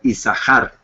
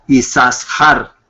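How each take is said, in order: First: The middle consonant is said only once. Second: The middle consonant is doubled and emphasized. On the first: The speaker calls it right. "como si fuera una sola shin" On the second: The speaker calls it wrong. "y no Isashar"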